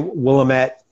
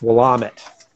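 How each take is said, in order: First: It is not said the local Oregon way. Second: It is said the local Oregon way. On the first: The speaker calls it wrong. "So don't say Willamette" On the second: The speaker calls it right. "It's Willamette"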